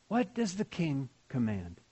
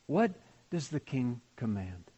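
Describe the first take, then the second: First: Soft and reverent. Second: A quiet, reverent question; soft and reverent. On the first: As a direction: let it linger quietly. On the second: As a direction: ask it gently, in awe. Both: Shown as a demonstration.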